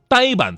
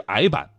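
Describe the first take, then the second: First: It is said with the present-day standard pronunciation. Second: It is said with an older, former pronunciation.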